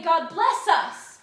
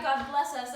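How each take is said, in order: First: God bless us much louder and slower, bless dragged out and falling; anguished loud prayer. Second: Said in the usual way. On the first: Retold or imitated. Macbeth reliving the prayer he could not answer, loud and slow. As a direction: wring the words out loud and slow. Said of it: "when they did say". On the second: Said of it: "One cried".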